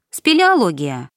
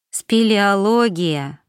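First: Said in the usual way. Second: Slow, drawn-out musing; thoughtful drawl. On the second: A narrator's reading. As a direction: stretch the word out as you ponder it. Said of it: "задумчиво протянула я".

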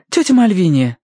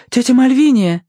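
First: High worried call. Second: High, loud urgent call. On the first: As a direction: call to wake her. Verity calls to fainted aunt. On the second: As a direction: shout her name to wake her. Verity calls again, louder. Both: A narrator's reading.

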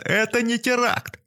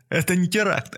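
First: Much higher, slow wailing yell; louder frantic yelling. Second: High desperate denial; frantic yelling. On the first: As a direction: wail it out, losing control. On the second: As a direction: yell it in panic. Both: A narrator's reading. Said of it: "вопил бомж".

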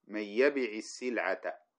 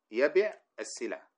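First: يبع said with an i before السلعة, slow; kasra on the joining letter. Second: يبع with the linking i, slowed; kasra repeated. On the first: Teacher showing the kasra that breaks two silent letters. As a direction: add a clear i on يبع. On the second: Teacher repeating the kasra example for students. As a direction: stretch the i in يبع. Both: Shown as a demonstration. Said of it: "فتكسرها".

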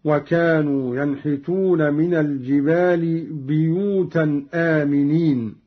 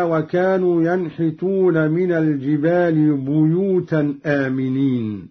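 First: بيوتا recited as biyutan; ba with kasra. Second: بيوتا recited as buyutan; ba with damma. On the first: Teacher demonstrates Qalun's reading, biyutan. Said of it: "بكسر الباء هكذا". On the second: Teacher recites the verse before Qalun's reading. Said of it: "قرأ قالون بكسر الباء". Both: Shown as a demonstration.

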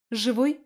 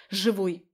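First: «Живой?» higher with a rising end; anxious question. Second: «Живой!» with a falling end; firm answer. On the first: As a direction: ask «Живой?» sharply, pitch climbing. Friend asks if he lives. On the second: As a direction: state «Живой!» firmly, pitch dropping. Narrator answers the anxious question. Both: Acted.

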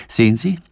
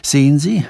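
First: A nervous first stammer of "Sehen Sie", rising at the end; fumbling for words in fright. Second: Repeating "sehen Sie", a little higher and falling; stammering. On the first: Preising, fearing pursuit, stammers to Sanford. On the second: Preising, fearing pursuit, stammers again to Sanford. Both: Acted. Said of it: "stammelte Preising".

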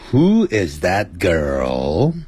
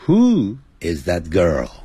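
First: Put-on WHO IS THAT GIRL stretched slowly, GIRL lifting at the end; rising question tune. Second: Put-on WHO IS THAT GIRL said slowly, GIRL falling at the end; falling question tune. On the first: Teacher warns students off this question tune, rising at the end. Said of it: "就不能上扬". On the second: Teacher shows students the only allowed tune, falling at the end. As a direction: let "Who is that girl" drop on its last word. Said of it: "她是无法上扬的". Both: Shown as a demonstration.

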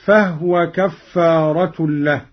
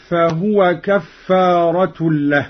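First: فهو said "fahwa", two syllables; vowelless ha. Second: Said in the usual way. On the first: Shown as a demonstration. Teacher demonstrating Qalun's reading, فهو pronounced "fahwa" with still ha. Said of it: "بإسكان الهاء هكذا". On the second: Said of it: "بإسكان الهاء".

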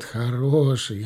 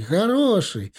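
First: Said in the usual way. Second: "хороший!" jumps much higher, insistent; pleading merchant. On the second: Acted. Merchant insists to officer, "хороший!" pitched high. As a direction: push "хороший!" up high to convince. Caravan man repeats word higher.

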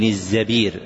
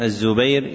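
First: الزبير said az-Zabir, with a short a after the z; fatha on the zay. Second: الزبير said az-Zubayr, with a short u after the z; damma on the zay. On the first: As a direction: pronounce الزبير as az-Za-BEER, long i before the r. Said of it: "بفتحها إلا في عبد الرحمن". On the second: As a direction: pronounce الزبير as az-Zu-BAYR, ending in -ayr. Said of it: "يأتي بضم الزاي". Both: Shown as a demonstration.

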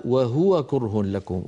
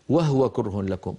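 First: وهو with the ha made silent, as students often say it; wrong Huwa pronunciation. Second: وهو said wahwa with ha unvoweled; demonstrating the wrong sukun on ha; silent ha error. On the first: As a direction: say وهو as wahwa, ha without a vowel. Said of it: "هذه الكلمة كثيرا ما أسمعها". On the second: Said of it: "وهو ساكنة الهاء". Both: Shown as a demonstration.

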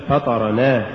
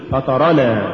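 First: فطرنا broken as فطر + نا; wrongly split word. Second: فطرنا as one unbroken word; correctly joined word. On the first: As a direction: set نا apart at the end of فطرنا. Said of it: "ولا تقل". (فصل «نا» في «فطرنا») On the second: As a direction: keep نا attached inside فطرنا. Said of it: "قل". (نطق «فطرنا» كلمة واحدة) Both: Shown as a demonstration.

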